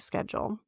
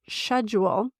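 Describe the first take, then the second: First: The word is said the American way. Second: The word is said the British way. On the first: "here in the Midwest, I, I still say schedule" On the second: "which I know is correct for all of my U K and Australian friends"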